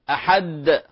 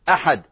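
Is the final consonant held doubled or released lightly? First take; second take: doubled; lightly. First: The final consonant is exaggerated and sounds doubled. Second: The final consonant is released lightly without doubling. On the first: The speaker calls it wrong. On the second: The speaker calls it right.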